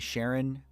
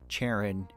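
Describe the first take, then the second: First: The name begins with an sh sound. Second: The name begins with a ch sound.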